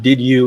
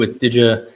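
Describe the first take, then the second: First: The two words are said separately and clearly. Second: The two words blend together into one sound. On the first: The speaker calls it wrong. "it's not did you" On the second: The speaker calls it right.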